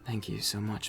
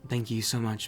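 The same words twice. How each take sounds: First: It is said in a sultry voice. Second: It is said in a plain, normal voice.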